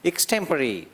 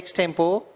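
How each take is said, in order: First: The word ends with a 'puh-ree' sound. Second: The word ends with a short 'po' sound. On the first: The speaker calls it right. "इक से शुरू करते हैं स्टेम और last में परी बोलते हैं" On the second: The speaker calls it wrong. "Spelling तो ऐसा है एक्सटेम्पो"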